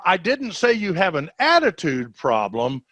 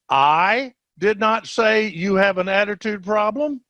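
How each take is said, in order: First: The stress is on "attitude". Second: The stress is on "I".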